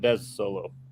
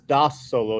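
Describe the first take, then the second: First: The first word has an 'eh' vowel. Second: The first word has an 'ah' vowel. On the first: The speaker calls it wrong. "not Des Solo" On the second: The speaker calls it right. "That says Das Solo"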